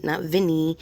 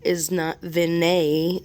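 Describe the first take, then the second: First: "Vinny" said short as VIN-ee; quick "Vinny", stress on the first syllable; contrasting name. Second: "Vinay" said slowly as vin-AY, rising on the end; careful name. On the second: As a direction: spell out "Vinay" as vin-AY, slow. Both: Shown as a demonstration. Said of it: "Vinay is not a common name".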